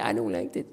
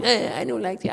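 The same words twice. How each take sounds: First: Whispered, much lower and softer; a teacher mimicking a sulking pupil muttering; mock whispered whine. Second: Softer, whiny complaint; a teacher mimicking a pupil's whining; mock whine. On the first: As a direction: breathe the complaint under your breath. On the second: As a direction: imitate a sulky student grumbling. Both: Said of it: "you whine".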